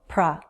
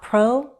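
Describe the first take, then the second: First: The syllable has a short, reduced 'uh' vowel. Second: The syllable has a full, rounded 'oh' vowel. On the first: The speaker calls it right. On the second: The speaker calls it wrong. "Not pro"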